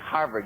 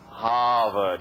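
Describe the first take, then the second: First: It is said in a plain, everyday accent. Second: It is said in an East Coast Ivy League accent. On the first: The speaker calls it wrong. "you don't say Harvard" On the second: The speaker calls it right. "on the East Coast, if you're part of the Ivy League, ... you say Harvard"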